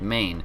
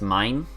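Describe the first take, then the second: First: The vowel sounds like the word 'may'. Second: The vowel sounds like the word 'my'. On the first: It follows the name of the U.S. state. The speaker calls it wrong. "me pronouncing Maine like like I just did" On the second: It follows the French way of saying it. The speaker calls it right. "it's pronounced mine"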